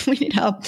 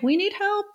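First: Laughing through the words. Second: Pleading. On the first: Real, not acted. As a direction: repeat it while chuckling. Laughs, repeats the plea. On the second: Retold or imitated. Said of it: "if you're like".

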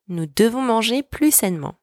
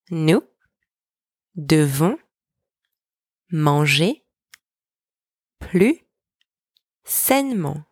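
First: Said in the usual way. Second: Single words rising, the last one falling; slow dictation with long pauses between words. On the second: Shown as a demonstration. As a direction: leave a gap after each for learners to repeat. Word-by-word breakdown for repetition.

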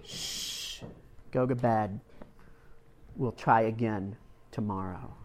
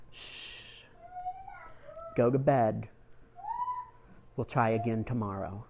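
First: A soft shh, then quiet tender words; hushed comfort. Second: Soft hushing mother, gentle and low; hushed comfort. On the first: Mother repeating comfort to her boy, hushed and tender. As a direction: hush him gently a second time. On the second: Mother hushing her tearful son at bedtime, soft and tender. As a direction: soothe a crying child to sleep. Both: Retold or imitated. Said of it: "She said".

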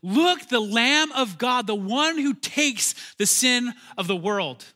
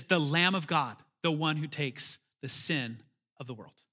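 First: Loud, slow, high proclamation; slow ringing cry of recognition; proclaiming. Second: Quiet awe. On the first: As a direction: announce him like a herald to the crowd. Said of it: "John says these very words". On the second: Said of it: "And he says". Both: Acted.

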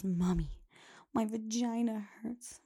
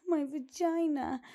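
First: Imitating little girl. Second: Put-on slow, higher child voice repeating the word; insistent little girl. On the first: Host imitates a little girl complaining to her mother, lightly whiny. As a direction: mimic a small child telling her mom. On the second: Host imitates a little girl insisting to her mom, higher and slow. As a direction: say it again as a kid would, insisting.

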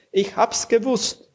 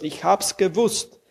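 First: Much higher, overjoyed; jubilant repeat. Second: Lightly raised, glad; happy certainty. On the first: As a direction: cry it out in triumph. (jubelnd, viel höher) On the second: (freudig, leicht höher) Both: A narrator's reading. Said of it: "fast erstickt vom Jubel".

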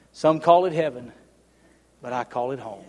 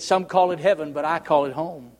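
First: Much softer, lower, drifting away to near nothing; fading hush. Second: Soft, low reading of the song lyric; read softly. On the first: Preacher closing the song lyric, fading to a hush. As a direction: let the last line die to a hush. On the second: Preacher reading song lyrics to the congregation, softly. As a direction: read the song's words gently. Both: Shown as a demonstration. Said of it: "read the words to you".

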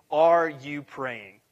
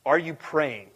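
First: Drawn-out, weighty question; slow and deliberate. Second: Said in the usual way. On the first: Shown as a demonstration. Pastor presses the congregation with a slow question. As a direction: let each word sit, very slowly. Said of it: "repeated question, first take slow". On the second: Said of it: "repeated question, second take".

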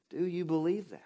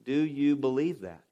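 First: Softer repeat. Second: Said in the usual way. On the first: Real, not acted. Preacher repeats question, quieter.

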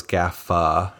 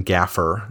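First: "Gaffa" ending in an open ah, no r; open-vowel ending. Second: "Gaffer" with the final r sounded; r-ending pronunciation. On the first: Comparing song title spellings, "Gaffa" without the r. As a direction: say "Gaffa" with a soft final uh-ah. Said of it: "sing as well as [name]". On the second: Comparing song title spellings, "Gaffer" with audible r. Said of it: "It doesn't really sing as well". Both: Shown as a demonstration.

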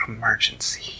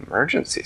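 First: Whispered cat voice; hushed feline voice; purring cat. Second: Rising, voiced question; mildly surprised question; questioning echo. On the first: Acted. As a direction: murmur it through a purr. Theodore the cat breaks the news. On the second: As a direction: echo it back as a query. Manella repeats it as a question.

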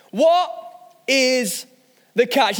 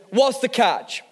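First: "What... is... the catch?" with a pause after each word; word-by-word emphasis. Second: Said in the usual way. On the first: Shown as a demonstration. Preacher puts a question to the congregation, spaced word by word for emphasis.

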